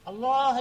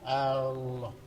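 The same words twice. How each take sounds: First: The opening vowel is said short. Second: The opening vowel is drawn out long. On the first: It is a statement that God is great. The speaker calls it right. "Allah saja" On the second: It turns into a question whether God is great. The speaker calls it wrong. "Ini panjang"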